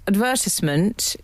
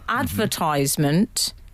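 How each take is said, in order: First: It is said the traditional British RP way. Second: It is said the American way. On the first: "the traditional R P pronunciation" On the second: "an American corruption"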